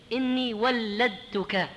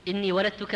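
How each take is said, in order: First: ولدتك very slow, ل doubled and held: wal-ladtuka; emphatic wal-ladtuka for ولدتك; heavy doubled lam. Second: ولدتك with a single light ل: waladtuka; undoubled lam in ولدتك; lam without shadda. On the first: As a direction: stretch the shadda on the ل of ولدتك. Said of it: "بحرف ثقيل خففوه". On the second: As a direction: say ولدتك plainly, ل not doubled. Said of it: "بدون شدة". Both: Shown as a demonstration.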